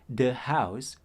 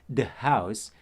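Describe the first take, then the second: The two takes are said the same way.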